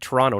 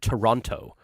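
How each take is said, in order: First: The middle T sound is dropped. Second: The middle T sound is clearly pronounced. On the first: The speaker is a local. "you're from Toronto because you said Toronto" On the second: The speaker is an outsider. "not Toronto"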